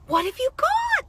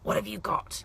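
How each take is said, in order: First: It is said in an excited, delighted tone. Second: It is said in a stern, accusing tone.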